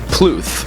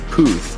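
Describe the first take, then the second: First: An L sound follows the first consonant. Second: No L sound follows the first consonant. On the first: The speaker calls it wrong. "because there's no L in there" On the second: The speaker calls it right. "It's like [name]"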